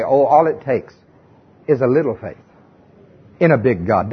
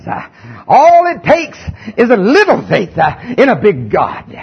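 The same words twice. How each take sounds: First: Mild mock of a gentle Sunday-school saying; sweetly pious quote. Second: Southern preaching voice. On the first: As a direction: coo it like a comforting cliché. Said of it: "especially when they say". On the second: Shown as a demonstration. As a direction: belt "a little faith in a big God" like a revival pulpit. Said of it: "I gotta get my southern preaching voice on".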